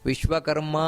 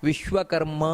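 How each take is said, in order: No difference in how they are said.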